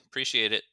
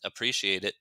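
First: "Appreciate it" said as "preciate it"; casual contracted thanks, "Appreciate it" minus first vowel; dropped "uh". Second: "Appreciate it" linked, subject left off; a simple quick thanks, "Appreciate it" as one unit; casual "Appreciate it" with no "I"; reduced form. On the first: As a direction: start "Appreciate it" right on the "pre". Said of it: "it sounds like a contraction". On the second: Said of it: "leave off the subject". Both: Shown as a demonstration.

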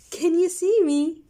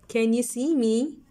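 First: Lifted, bright question; high excited question. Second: Said in the usual way. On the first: Shown as a demonstration. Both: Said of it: "One more time, let's read".

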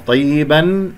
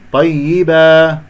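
First: Unstretched طيبا ending in n; tanween form. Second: Slow chanted طيبا with stretched final vowel; madd iwad stop. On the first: (طيبا بالتنوين) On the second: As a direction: end طيبا on a long held aa, no n. (الوقف بمد العوض في طيبا) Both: Shown as a demonstration. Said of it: "أقف بمد العوض".

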